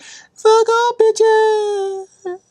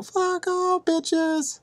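First: Mock battle yell. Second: High, softer falsetto cry; a held-back high-pitched yell; mock battle cry. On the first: Spartan kicking a guy in the well, high mock screech. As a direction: belt it out in falsetto and hold it. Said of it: "kicks a guy in the well, like". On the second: Proposing a better Spartan line, in soft high falsetto. His suggested replacement movie line.

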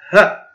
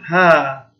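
First: ه as a quick, short ha; short fatha. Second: ها with a drawn-out haa; long alif. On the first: Teacher showing the short sound with fatha, brief ha for ه. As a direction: cut the vowel of ه short. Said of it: "القصير أقل من ثانية". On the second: Teacher showing the long sound with alif, held haa for ها. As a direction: hold the vowel of ها long. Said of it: "الصوت الطويل وجود حروف المد". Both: Shown as a demonstration.

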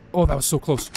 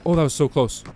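No difference in how they are said.

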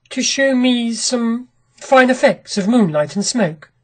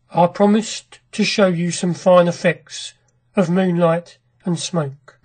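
First: Said in the usual way. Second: Colourless. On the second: A narrator's reading. Husband repeating the visitor's words back, in a colourless voice. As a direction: repeat it with all expression drained, slowing at the end. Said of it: "repeated Horrocks in a colourless voice".

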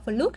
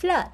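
First: "flood" said with an oo vowel; learner's mistaken "fluud" for "flood"; mispronounced flood. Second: "Flood" with an open uh vowel; corrected pronunciation. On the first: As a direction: rhyme "flood" wrongly with "food". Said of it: "chúng ta đọc bị sai phát âm". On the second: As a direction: say "Flood" like Vietnamese ơ, mouth wide. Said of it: "mình phải đọc là dấu ớ". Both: Shown as a demonstration.

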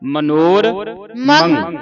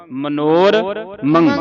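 First: ਮਨੋਰਮੰ drawn out slowly with a rising end; ਮਨੋਰ then ਮੰ joined; teacher gives the pure form; correct pronunciation. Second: Very slow ਮਨੋਰਮੰ split the wrong way; imitating the mistaken ਮਨੋਰਮੰ; teacher models the error; wrong pronunciation. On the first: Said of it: "ਇਹਦਾ ਸ਼ੁੱਧ ਉਚਾਰਨ ਹੈ". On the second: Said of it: "ਮਨੋਰਮੰ ਨਹੀਂ ਬੋਲਣਾ". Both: Shown as a demonstration.

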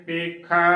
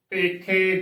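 First: ਪੇਖਾ with the last vowel as open ai; open ai ending. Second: ਪੇਖੇ ending in narrow long e; close e ending. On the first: Teacher giving the correct reading, ਪੇਖਾ with open ai. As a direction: end ਪੇਖਾ on a wide 'ae'. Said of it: "ਸਹੀ ਉਚਾਰਨ ਹੈ". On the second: Teacher showing the congregation's mistake, ਪੇਖੇ with close e. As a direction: close the final vowel of ਪੇਖੇ. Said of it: "ਗਲਤ ਉਚਾਰਨ ਹੈ". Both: Shown as a demonstration.

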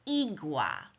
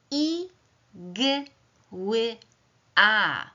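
First: Said in the usual way. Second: "I, g, ły, a" as four separate high sounds; sounded out phonemes. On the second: Shown as a demonstration. Teacher sounding out the first word for pupils, phoneme by phoneme. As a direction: isolate each sound of "I, g, ły, a" with pauses. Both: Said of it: "głoskuję pierwszy wyraz".

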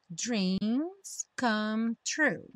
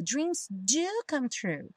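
First: Said in the usual way. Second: "do" pressed slow and firm, then "come true"; stress on do. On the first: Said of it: "pra uma afirmativa". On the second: Shown as a demonstration. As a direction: lean hard on "do" in "dreams do come true". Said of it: "a ideia aqui é você enfatizar". (ênfase forte em "do", dito devagar)

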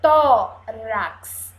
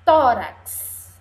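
First: Loud TÓ, then RAX apart; syllable by syllable. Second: Said in the usual way. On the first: Shown as a demonstration. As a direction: pull "Tórax" into two firm syllables. ("Tórax" silabado e forte: tó... rax) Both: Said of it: "Vamos ver os pedacinhos".

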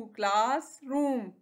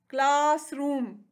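First: classroom slow, with a gap between class and रूम; two separate chunks in classroom; split into syllables. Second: classroom slowly, drawing out class; two beats in classroom; split into syllables. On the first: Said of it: "टू". (Classroom को दो हिस्सों में रुककर) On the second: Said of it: "इसके कितने syllables हैं". (Classroom को खींचकर, दो हिस्सों में) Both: Shown as a demonstration.

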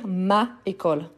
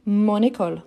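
First: "ma école" with two vowels meeting, no linking n; wrong, no liaison. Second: "mon école" linked as mon-nécole; liaison. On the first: Teacher showing the form to avoid, "ma école" without liaison. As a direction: say "ma école" as two separate words, vowel against vowel. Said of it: "au lieu de dire". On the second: French teacher giving the correct form, "mon école" with liaison. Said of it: "voyelle avec voyelle ensemble". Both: Shown as a demonstration.

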